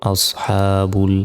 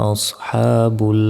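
The two takes are said the same way.

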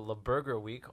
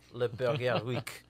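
First: It is said in a plain English accent. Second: It is said in an exaggerated French accent. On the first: The speaker calls it wrong. "No, Zayn, you got to say it right" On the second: The speaker calls it right. "Straight out of the Pink Panther"

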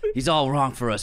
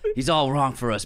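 First: The voice is rough and raspy. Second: The voice is rough and raspy.

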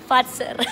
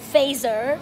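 First: The middle consonant is a sharp ts sound. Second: The middle consonant is a soft z sound. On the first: The speaker calls it right. "it's pronounced" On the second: The speaker calls it wrong. "what I used to call phaser"

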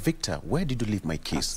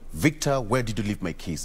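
First: The tone sounds gentle and polite. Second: The tone sounds accusing and irritated. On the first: The speaker is politely asking where the keys are. "But the second one is a request" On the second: The speaker is blaming the listener for misplacing the keys. "The first one is, like, what were you even doing with the keys?"

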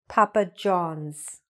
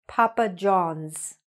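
No difference in how they are said.

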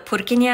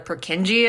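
First: The name is said the Czech way. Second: The name is said the anglicized way. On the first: The speaker calls it right. "named after the Czech anatomist" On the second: The speaker calls it wrong. "commonly mispronounced as"

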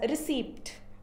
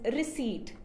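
First: The P sound is pronounced in the middle of the word. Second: The P sound is silent in the middle of the word. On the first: The speaker calls it wrong. "most of us pronounce it as receipt, but that's wrong pronunciation" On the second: The speaker calls it right. "The correct pronunciation is receipt, where P is silent"

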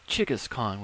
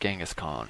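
First: The name begins with a 'ch' sound. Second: The name begins with a soft 'j' sound. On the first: The speaker calls it right. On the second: The speaker calls it wrong.

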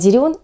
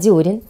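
First: The stress is on the second syllable. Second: The stress is on the first syllable. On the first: The speaker calls it wrong. "правильно произносить не дерен" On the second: The speaker calls it right. "а дерен"

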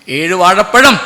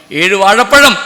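The two takes are said the same way.

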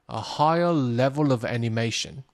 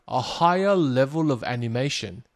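No difference in how they are said.

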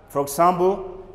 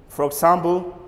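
No difference in how they are said.

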